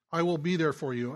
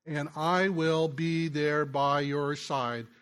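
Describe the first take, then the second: First: Said in the usual way. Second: Drawn out, each word weighted slowly; by your side stretched out as a vow; slow earnest pledge. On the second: Shown as a demonstration. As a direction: lean into every word of the promise.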